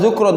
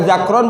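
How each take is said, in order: First: The first vowel is a u sound. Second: The first vowel is an a sound.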